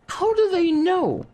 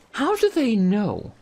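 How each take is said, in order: First: "do" drawn out, higher and slow; mock-baffled "how DO they know"; emphatic repeat. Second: Slow, with "do" stretched; puzzled, unhurried question; slow rhetorical question. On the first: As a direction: lean hard on "do", slowly. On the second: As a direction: ask it slowly, dwelling on "do". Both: Real, not acted.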